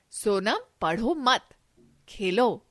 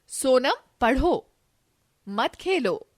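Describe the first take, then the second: First: पढ़ो मत run together, then खेलो alone; Sonam, पढ़ो मत as one phrase, pause before खेलो; pause after मत. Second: सोनम, पढ़ो, then a clear break before मत खेलो; slow सोनम, पढ़ो, pause, मत खेलो as one phrase; pause after पढ़ो. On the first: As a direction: join मत onto पढ़ो, break, then say Khelo. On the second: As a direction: stop after पढ़ो and keep मत खेलो together. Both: Shown as a demonstration. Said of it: "अलग-अलग स्थान पर रुकने का संकेत".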